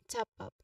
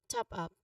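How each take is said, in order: The two takes are said the same way.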